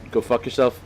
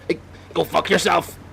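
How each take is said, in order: First: Said in the usual way. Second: High, mock-tough Northern Irish yell, badly overdone; hammed-up Northern Irish accent. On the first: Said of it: "That's good swearing". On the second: Swearing at the townsfolk for fun, hammed-up Northern Irish accent. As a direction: throw the line out in an exaggerated Northern Irish voice. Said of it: "a bad impression of, uh, his own accent".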